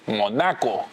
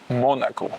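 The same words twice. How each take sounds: First: The stress is on the A syllable. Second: The stress is not on the A syllable. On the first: It is changed to make a lyric rhyme. The speaker calls it wrong. "like with the accent in the A, which is, is the wrong pronunciation" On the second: This is how the place name is normally said. The speaker calls it right. "In Spanish or in France, they don't they pronounce it Monaco"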